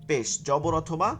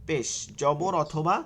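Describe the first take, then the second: The two takes are said the same way.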